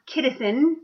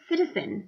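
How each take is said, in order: First: The word begins with a hard K sound. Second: The word begins with a soft S sound. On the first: The speaker calls it wrong. "it's not kidison" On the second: The speaker calls it right. "it's citizen"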